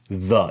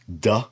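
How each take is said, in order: First: The consonant is a soft th sound. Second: The consonant is a hard d stop. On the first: "the soft Dalet would be" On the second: "a hard Dalet would be the D sound"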